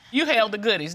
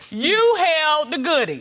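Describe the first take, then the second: First: It is said at normal volume. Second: It is said loudly.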